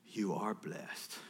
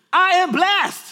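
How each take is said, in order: First: Low, soft, slow assurance; father's affirmation. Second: Put-on high, loud excited kid; child's proud shout. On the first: Retold or imitated. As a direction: affirm it quietly and slowly. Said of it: "you know what I say?". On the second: Children before school declare it to dad, loud high shout. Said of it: "they go like this".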